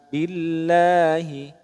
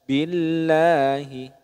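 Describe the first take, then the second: No difference in how they are said.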